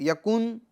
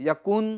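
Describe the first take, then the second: No difference in how they are said.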